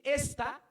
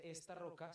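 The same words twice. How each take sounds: First: "esta" punched much higher and louder, as if accented; stress on ESTA. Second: Said in the usual way. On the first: Shown as a demonstration. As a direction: hit "esta" hard, like it had a tilde. ("esta" con tilde, muy marcado y fuerte) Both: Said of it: "Si, si, si tuviera tilde".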